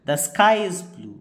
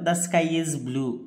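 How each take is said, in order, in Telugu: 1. Pitch ఎత్తుగా మొదలై చివర్లో కిందకు పడుతుంది. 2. మొత్తం వాక్యంలో పిచ్ ఒకేలా ఉంటుంది. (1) "falling tone" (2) "tone of voice use చేయలేదు ఎక్కడ కూడా మనం"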